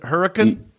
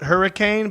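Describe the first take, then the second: First: It is said with the local regional pronunciation. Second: It is said the standard, spelled-out way. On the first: "but y'all just pronounce it hurricane" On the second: "Do you spell it hurricane"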